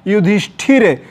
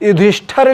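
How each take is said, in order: First: युधिष्ठिर ending in "thir"; an i in the last syllable of युधिष्ठिर; correct form. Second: युधिष्ठिर ending in "thar"; an a in the last syllable of युधिष्ठिर; wrong form. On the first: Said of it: "शुद्ध क्या होगा?". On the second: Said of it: "लिखा है". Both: Shown as a demonstration.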